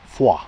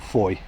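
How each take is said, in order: First: It is said the French way, like fwah. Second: It is said the American way, like foy.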